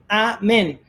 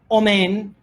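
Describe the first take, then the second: First: The word begins with an open a vowel. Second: The word begins with a rounded o vowel. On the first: The speaker calls it right. "la respuesta es amén" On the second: The speaker calls it wrong. "no omen"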